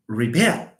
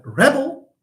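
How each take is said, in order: First: "rebel" as ree-BELL, lower; light "re", strong "bel" in "rebel"; stress on second syllable. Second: "rebel" as REB-ul; stress on first syllable. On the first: Teacher contrasts verb with noun, "rebel" stressed on the end. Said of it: "But the verb". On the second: Teacher contrasts noun with verb, "rebel" stressed up front. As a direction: put the weight on "reb" in "rebel". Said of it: "because it's a noun". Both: Shown as a demonstration.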